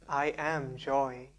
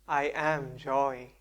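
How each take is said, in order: No difference in how they are said.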